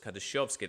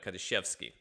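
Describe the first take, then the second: First: The middle vowel sounds like 'yo'. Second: The middle vowel sounds like a plain 'e'. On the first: This is the name's real form. The speaker calls it right. "people didn't know it was Kadashovsky" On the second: This is how people wrongly assumed it sounded. The speaker calls it wrong. "They thought it was uh, Kadashevsky"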